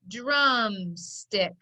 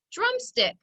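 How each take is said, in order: First: DRUMSTICK stretched out, syllable by syllable; slow blending. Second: DRUMSTICK said quickly, much higher at the start; quick whole word. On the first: Teacher putting the syllables together, slowly blending DRUMSTICK. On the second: Teacher repeating the blended word, DRUMSTICK quick and whole. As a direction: say "Drumstick" as one brisk, high-pitched word. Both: Shown as a demonstration. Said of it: "Put it together".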